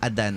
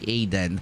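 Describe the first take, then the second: First: The name begins with an 'ah' vowel. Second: The name begins with an 'eye' vowel. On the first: The speaker calls it right. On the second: The speaker calls it wrong.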